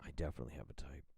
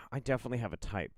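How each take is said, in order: First: Low, very soft whisper; whispered realisation. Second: Said in the usual way. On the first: Real, not acted. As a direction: whisper it quickly to yourself. Repeats it to self, whispered.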